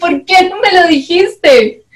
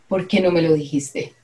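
First: It is said while laughing. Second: It is said plainly, as a question.

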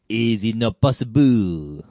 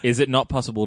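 First: It is said in a put-on character voice. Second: It is said in the speaker's normal voice.

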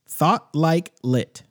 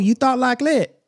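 First: The phrase is said slowly, word by word. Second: The phrase is said quickly, run together.

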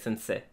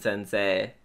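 First: The final vowel is swallowed and unstressed. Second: The final vowel is fully pronounced and stressed. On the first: It is the German-style name. The speaker calls it right. "you have to eat the vowel at the end" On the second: It is the Japanese word. The speaker calls it wrong. "not stress it like in sensei"

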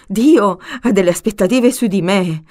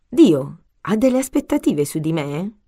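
First: It is asked in a surprised, alarmed tone. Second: It is asked in a calm, reflective tone.

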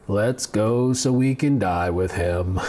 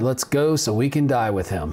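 First: It is said in a gloomy Eeyore voice. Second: It is read in a plain voice.

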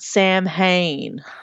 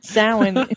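First: It is said as spelled, sounding the h. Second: It is said with the traditional pronunciation. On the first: The speaker calls it wrong. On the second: The speaker calls it right.

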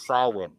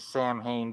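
First: It is said with the native Irish pronunciation. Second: It is said with the anglicized English pronunciation. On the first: "the actual word in Irish is pronounced Samhain" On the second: "In English, they say Samhain"

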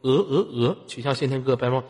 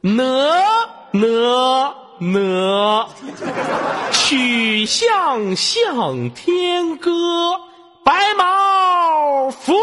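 First: It is read flatly, without any feeling. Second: It is read with lively, expressive feeling.

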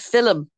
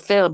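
First: It is said in a strong Dublin accent. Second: It is said in a standard, non-Dublin accent.

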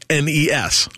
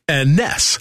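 First: Each letter is said separately. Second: It is said as a single word.

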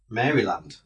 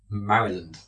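First: It is said like Mary followed by land. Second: It is said with a reduced, merged middle. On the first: "We're just British, that's the way we pronounce it" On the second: "apparently isn't pronounced Maryland by the Americans"

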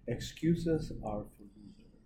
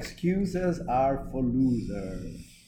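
First: It is said at normal volume. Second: It is said louder.

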